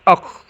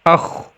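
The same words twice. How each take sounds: First: The final kh sound is cut off abruptly. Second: The final kh sound keeps flowing out. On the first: The speaker calls it wrong. "Tidak boleh akh, akh. Nah, itu tertahan" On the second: The speaker calls it right. "dengan mengalirkan suara ketika membaca huruf ini"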